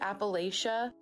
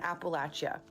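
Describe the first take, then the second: First: The word does not sound like 'apple at ya'. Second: The word sounds like 'apple at ya'. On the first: The speaker calls it wrong. "I used to pronounce it like Appalachia" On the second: The speaker calls it right. "it's pronounced like when you're saying throw an Appalachia"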